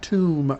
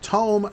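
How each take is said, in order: First: The vowel sounds like 'oo'. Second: The vowel sounds like 'oh'. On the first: A place where the dead are buried. The speaker calls it wrong. "not Tomb" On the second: A large book. The speaker calls it right. "It's Tome"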